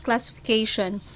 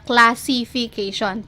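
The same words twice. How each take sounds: First: One middle vowel is dropped from the word. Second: Every vowel in the word is fully pronounced. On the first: This is how native English speakers say it. "wala yung sound ng E" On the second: This is how Filipino speakers say it. "we pronounce it as it is"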